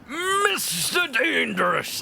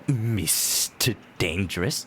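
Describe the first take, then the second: First: It is said with excited feeling. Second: It is said in a G-Man impression.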